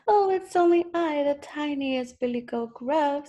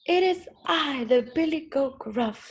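First: High-pitched tiny goat; very small voice. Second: Big goat, mildly loud; loud as a troll. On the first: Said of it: "in his very small voice". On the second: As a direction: announce yourself as the biggest goat, starting high. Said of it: "as loud as the troll". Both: A narrator's reading.

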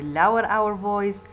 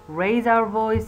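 First: Teacher easing the voice down slightly; slightly lowered voice. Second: Higher, louder teaching emphasis; raised voice. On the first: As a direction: let the voice drop a little from raised. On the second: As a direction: lift pitch and volume a little. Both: Shown as a demonstration.

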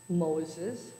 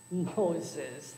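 First: Said in the usual way. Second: A mild mocking chuckle on the name; laughing. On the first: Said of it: "replied the bird". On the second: A narrator's reading. Burglar repeats the parrot's answer, mild mocking laugh. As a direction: scoff at the name lightly. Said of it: "the burglar laughed".

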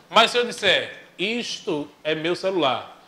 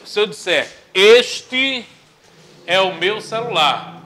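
First: "isto" leaned on with a falling tune; teacher showing "isto" sounding dismissive; stressed "isto". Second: Teacher stressing "este" as the respectful form; stressed "este". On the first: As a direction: mark "isto" in "isto é meu celular" as the contemptuous form. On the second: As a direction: hit "este" hard in "este é o meu celular". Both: Shown as a demonstration. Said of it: "não passa um valor pejorativo".

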